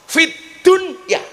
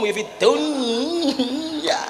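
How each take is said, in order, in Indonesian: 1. Konsonan itu diucapkan dengan jelas dan terpisah. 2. Konsonan itu menyatu dengan bunyi berikutnya. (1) "harus dibaca idhar" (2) "Kuwi jenenge idgham"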